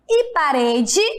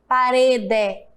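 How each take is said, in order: First: The final vowel sounds like 'ee'. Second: The final vowel sounds like 'eh'. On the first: The speaker calls it right. "o E também tem som de I" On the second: The speaker calls it wrong. "Eu não falo rede, parede"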